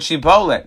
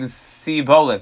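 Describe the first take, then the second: First: The word begins with an sh sound. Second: The word begins with an s sound. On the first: "And they would say the word shibolet" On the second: "So they would pronounce the word sibolet"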